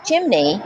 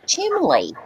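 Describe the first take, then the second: First: Said in the usual way. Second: "chimley" said with an L instead of N; chimley for chimney. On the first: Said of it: "say the word". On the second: Shown as a demonstration. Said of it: "and they say".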